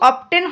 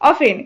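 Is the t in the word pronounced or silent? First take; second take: pronounced; silent. First: The t sound is pronounced in the middle. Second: The t sound is left out entirely. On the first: The speaker calls it wrong. "এটা কিন্তু অফটেন হবে না" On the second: The speaker calls it right. "এটা হবে অফেন"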